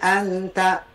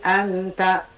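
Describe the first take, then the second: First: The nasal hum is cut short in one beat. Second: The nasal hum is cut short in one beat.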